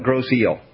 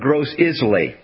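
First: The second word sounds like 'eel'. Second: The second word sounds like 'isle'. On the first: The speaker calls it right. "but they call it Gros Eel" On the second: The speaker calls it wrong. "it's like it's Gros Island or Gros Isle"

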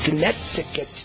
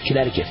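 First: The word is said in a mock local accent. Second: The word is said in a plain, standard way. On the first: The speaker calls it wrong. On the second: The speaker calls it right.

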